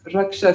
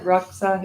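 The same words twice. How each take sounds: First: "raksha" as ruk-sha with an sh sound; correct retroflex S. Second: "raksa" as ruk-sa with a plain s; mispronunciation shown. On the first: Teacher correcting raksa, "raksha" with retroflex sh. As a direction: end "raksha" on a curled-back sha. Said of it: "it's, it's raksha". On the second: Teacher showing what it's not, "raksa" with plain s. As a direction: end "raksa" on sa, without any sh. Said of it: "It's not raksa". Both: Shown as a demonstration.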